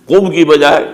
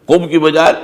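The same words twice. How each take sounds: No difference in how they are said.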